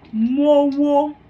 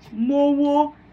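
First: The words merge into one, one vowel dropped. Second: The words merge into one, one vowel dropped.

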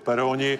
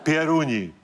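First: It starts with plain 'pe' and has 'o'. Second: It starts with 'pje' and has 'u'. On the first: The speaker calls it wrong. "nejsou peroni" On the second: The speaker calls it right.

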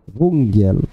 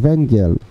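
First: The word has a Silesian-style pronunciation. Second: The word has a standard Polish pronunciation.

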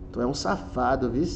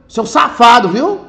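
First: It sounds affectionate and flirtatious. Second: It sounds angry and accusing.

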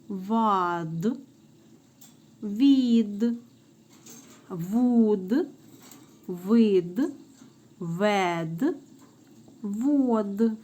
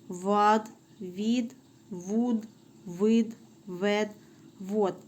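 First: The syllables are read at a moderate pace. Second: The syllables are read at the fastest pace.

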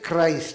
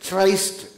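First: The word begins with a hard k sound. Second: The word begins with a ch sound. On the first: The speaker calls it right. "we say Christ" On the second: The speaker calls it wrong. "we don't say Christ"

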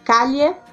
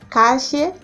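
First: The ll is a palatal 'ly' sound. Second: The ll is a hissing 'sh' sound. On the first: "pode ser pronunciado como se fosse o nosso LH do português" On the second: "pode ter o som chiado"

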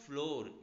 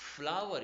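First: The word is said like 'floor'. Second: The word is said like 'flower'. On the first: The speaker calls it wrong. "कुछ students इसको गलती से फ्लोर पढ़ते हैं, but it is not फ्लोर" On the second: The speaker calls it right. "It is फ्लावर"

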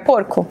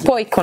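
First: The word is said with an r sound. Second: The r is replaced by an i sound. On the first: "pra ele é o porco" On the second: "Poico, na verdade. Que ele não fala o porco"

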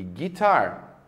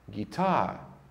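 First: The final R sound is clearly pronounced. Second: The final R sound is dropped. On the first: This is the American way of saying it. "No inglês norte-americano, a letra R no final das palavras sempre é pronunciada" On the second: This is the British way of saying it. "uma pessoa do Reino Unido falaria essas mesmas palavras dessa forma aqui"

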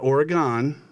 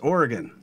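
First: Oregon is pronounced the way East Coast speakers say it. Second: Oregon is pronounced the way local speakers say it. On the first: The speaker calls it wrong. "Not Oregon, as many people on the east side of the country say" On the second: The speaker calls it right. "It's Oregon"

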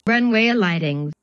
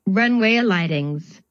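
Both takes have the same delivery.

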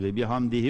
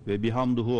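First: The vowel after 'bihamd' is 'i'. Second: The vowel after 'bihamd' is 'u'. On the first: The speaker calls it right. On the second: The speaker calls it wrong.

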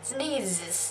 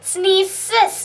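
First: The consonant is said as a buzzing z. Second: The consonant is said as a hissing s. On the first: The speaker calls it right. "ต้องอ่านว่า sneezes" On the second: The speaker calls it wrong. "เพราะฉะนั้นเราอ่าน sneezes ไม่ได้นะคะ"

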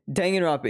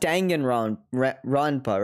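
First: The vowels are kept short and unemphasized. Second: The vowels are strongly drawn out and emphasized. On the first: The speaker calls it right. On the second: The speaker calls it wrong.

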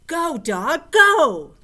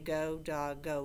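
First: The words are said excitedly, with much energy. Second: The words are said flatly, with little energy. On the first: The speaker calls it right. "you say it with feeling" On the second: The speaker calls it wrong. "So we don't just say"

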